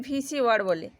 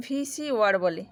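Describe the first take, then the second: No difference in how they are said.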